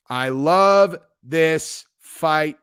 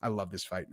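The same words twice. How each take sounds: First: "I love this fight" very slow, each word stretched; louder, lingering on every word of "I love this fight"; drawn-out emphasis. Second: Said in the usual way. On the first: Acted. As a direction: savour "love" and "fight" with long, weighty vowels. Repeats it emphatically, very slowly.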